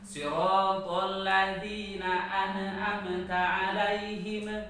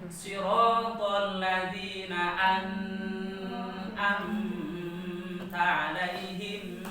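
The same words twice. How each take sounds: First: The n sound is stopped short and abrupt. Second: The n sound flows on and is overly prolonged. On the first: "Kalau nun dibaca syiddah pasti tawalud" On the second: "coba nun dibaca jadi rohwah berlebihan"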